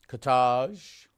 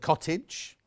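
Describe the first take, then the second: First: It is said with a French accent. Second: It is said with a plain English accent.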